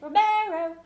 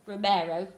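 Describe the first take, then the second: First: The name is said in a high voice. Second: The name is said in a low voice. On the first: The speaker calls it right. "I said Romero" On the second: The speaker calls it wrong. "I didn't say Romero"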